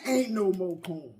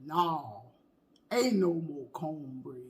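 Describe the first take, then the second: First: Lower, softer deadpan quote; a hint of the old lady's refusal; cornbread lady. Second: Low, soft, slow deadpan; cornbread lady. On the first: Repeating the cornbread lady line, low and quiet. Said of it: "Did she tell Martin that?". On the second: Retold or imitated. Imitating the cornbread lady refusing, low and slow. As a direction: drag it out flat like the old lady. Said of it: "That lady that say".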